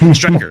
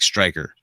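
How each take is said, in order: First: It is said very loudly. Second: It is said at a normal, quieter volume.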